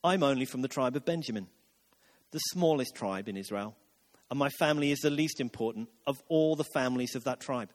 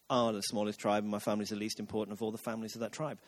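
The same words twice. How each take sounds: First: Low, softened, self-effacing reply; meek, low-pitched humble protest; self-deprecating Saul. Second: Low, quiet, rushed mock-humble mumble; dismissive low imitation of false modesty; mocking mimicry. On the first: Acted. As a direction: play down your own importance, voice dropped. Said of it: "But Saul replied". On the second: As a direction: parrot the humble excuse under your breath, fast. Mimics Saul's humble reply back mockingly.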